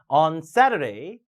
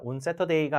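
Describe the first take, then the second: First: On SAturday, dipping then rising; English-stressed on Saturday; pressed, rising stress. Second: On Saturday as even "un-se-to-de-i"; unstressed, Korean-vowel On Saturday; wrong Korean-style reading. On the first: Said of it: "짚고 올라오세요". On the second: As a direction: flatten Saturday into Korean syllables. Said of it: "가 아니라". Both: Shown as a demonstration.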